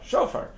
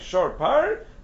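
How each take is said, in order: First: Run together quickly into one word. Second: Two separate words, said slowly and distinctly. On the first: It names a ram's horn. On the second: It names an ox and a bull together.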